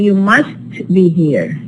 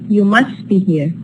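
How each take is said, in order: First: Must is stressed with its t pronounced. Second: The t in must is dropped, unstressed. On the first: "If you are stressing must" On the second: "The ta here is dropped"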